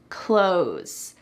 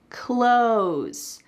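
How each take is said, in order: First: The TH sound is dropped, like close. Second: The same.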